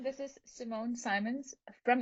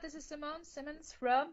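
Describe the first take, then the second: First: It is said in a changed, put-on voice. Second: It is said in her ordinary natural voice.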